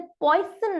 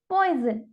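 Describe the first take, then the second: First: The middle consonant is an 's' sound. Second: The middle consonant is a 'z' sound. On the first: The speaker calls it wrong. "हम इसे पॉइजन नहीं पढ़ेंगे" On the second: The speaker calls it right. "हम इसे पढ़ेंगे पॉइजन"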